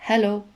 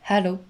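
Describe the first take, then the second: Both takes have the same delivery.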